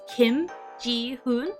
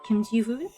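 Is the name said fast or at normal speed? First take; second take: normal; fast. First: The name is said at an ordinary, careful speed. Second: The name is said quickly, the syllables running together.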